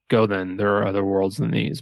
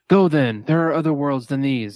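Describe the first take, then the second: First: It is said softly with solemn sorrow. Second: It is said loudly, almost shouted.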